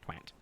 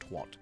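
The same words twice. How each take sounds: First: It is said with an American vowel. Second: It is said with a British vowel. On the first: "How Americans say twat, for example, ... it is twat" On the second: "is not twat"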